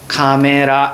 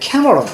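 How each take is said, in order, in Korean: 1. 평범한 한국식 발음이에요. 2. 영어식 발음이에요. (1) "발음을 최대한 무식하고 촌스럽게 해야 됩니다" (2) "이게 맞습니다"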